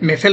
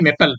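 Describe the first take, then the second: First: The middle consonant is an f sound. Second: The middle consonant is a p sound. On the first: The speaker calls it wrong. "চৰি মেফেল নহয়" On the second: The speaker calls it right.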